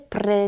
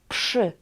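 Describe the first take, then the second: First: A plain r follows the p. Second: A sh-like sound follows the p. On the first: The speaker calls it wrong. "nie pry" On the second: The speaker calls it right. "tutaj jest szy"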